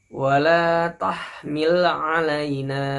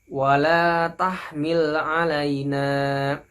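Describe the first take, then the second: The two takes are said the same way.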